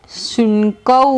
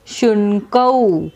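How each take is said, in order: First: शुनकौ said slowly with long closing कौ; teacher models शुनकौ slowly; slow Sanskrit word. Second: शुनकौ repeated very slowly, falling at the end; teacher says शुनकौ again, even slower. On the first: Teacher shows class how शुनकौ sounds. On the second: Teacher repeats शुनकौ for students, slowly. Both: Shown as a demonstration. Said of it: "क्या बना?".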